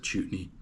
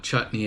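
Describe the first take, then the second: First: "chutney" said as CHOOT-nee; imitating his wrong CHOOT-nee for "chutney"; mispronounced chutney. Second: Said in the usual way. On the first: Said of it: "He calls it chutney". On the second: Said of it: "how to pronounce it".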